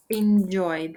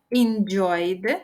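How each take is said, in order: First: Said in the usual way. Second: Slow, stretched "Enjoyed" with a rising end; drawn-out model word. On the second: Shown as a demonstration. Teacher showing learners the past form, drawn out.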